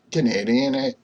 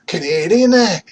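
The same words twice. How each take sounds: First: Said in the usual way. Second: High, loud hammed-up Canadian "Canadian, eh?" with the "eh" tacked on; jokey Canadian accent on "Canadian, eh?", high and loud; mock Canadian accent. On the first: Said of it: "we can do it". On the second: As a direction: belt "Canadian, eh?" as a Canadian caricature. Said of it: "we have Canadians that say".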